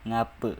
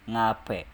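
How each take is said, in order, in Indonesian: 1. E di akhir dibaca lemah. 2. E di akhir dibaca kuat. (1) "e-nya dibaca lemah" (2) "Dibaca e-nya kuat"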